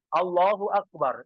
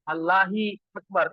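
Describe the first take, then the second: First: The vowel after Allah is a u sound. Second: The vowel after Allah is an i sound. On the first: The prayer is valid. The speaker calls it right. "kita bilang Allahu Akbar" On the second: The prayer is invalid. The speaker calls it wrong. "Kalau ini bukan Allahu Akbar, Allahi"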